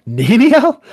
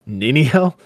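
First: Very high, loud theatrical shriek; over-the-top high-pitched outcry; incredulous cry. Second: Acted incredulous question, pitched higher; raised, rising query in a dramatic reading; questioning echo. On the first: Acted. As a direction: escalate into a piercing, hammed-up question. Same name repeated, far more intensely. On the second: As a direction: throw the name back as a question. Mocking echo of the wife's name.

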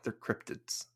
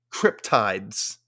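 First: "cryptids" with a short I, CRYP-tids; "cryptids" said softly with a short last vowel; correct pronunciation. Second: "cryptides" with a long I, like tides; mispronounced cryptids. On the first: Shown as a demonstration. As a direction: quietly correct it to "cryptids", ending like kids. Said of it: "I'm like". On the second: Retold or imitated. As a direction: say "cryptides" as CRYP-tides, slowly set apart. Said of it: "That's what she said".

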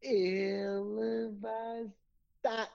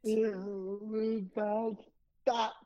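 First: Yawned, slow and drawn out; yawning. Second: Drawn-out, high announcer call. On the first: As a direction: yawn through the words. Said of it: "you yawned". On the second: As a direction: stretch it out like a show intro. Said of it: "You gotta do that again". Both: Shown as a demonstration.

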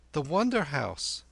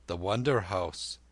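First: Put-on high, confident boy; high-pitched youngster naming a place; boy Kim. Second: Lightly voiced old man musing; old lama. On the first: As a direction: announce it in a high boy's voice. Kim informs the old man. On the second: Old lama echoes the boy.

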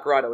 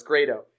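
First: "Grado" with an "ah" first vowel, GRAH-doh; wrong pronunciation. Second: "Grado" with an "ay" first vowel, GRAY-doh; correct pronunciation. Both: Shown as a demonstration. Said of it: "he told me it's pronounced not Grado".

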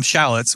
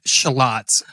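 First: "shallots" stressed on the first syllable with a flat a, SHAL-uts. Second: "shallots" with a schwa first and stress on "lots", shuh-LOTS; shallots as S0 says it. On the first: Shown as a demonstration. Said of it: "some people call 'em shallots". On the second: Retold or imitated. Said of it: "you said shallots".

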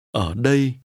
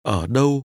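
First: "Ở đây" said carefully as a model; contrasting "here". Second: "Ở đâu" said carefully as a model; contrasting "where". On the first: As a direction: dip on "Ở", then a clear "ay-ee" glide in "đây". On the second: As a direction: dip on "Ở", then a clear rounded glide in "đâu". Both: Shown as a demonstration. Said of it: "compare where and here".

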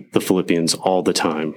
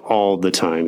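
First: Said in the usual way. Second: All leaned on and stretched; stress on all. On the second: Shown as a demonstration. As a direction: press the word all. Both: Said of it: "Like, all the time".

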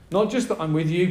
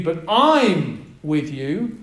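First: Said in the usual way. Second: "I'm" drawn out slowly and lifted, the rest of "I'm with you" slow and weighty; stress on I. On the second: Shown as a demonstration. Preacher showing the church that "I'm" carries the stress, slow and weighty. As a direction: lean hard on "I'm" in "I'm with you", slow and deliberate. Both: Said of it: "the emphasis is on the word "I".

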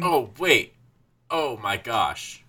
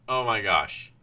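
First: Drawn-out slow oh my gosh; slow dawning realization. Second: Said in the usual way. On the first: Real, not acted. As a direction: let it dawn on you slowly.

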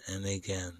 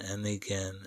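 Both takes have the same delivery.

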